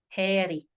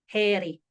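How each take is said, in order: No difference in how they are said.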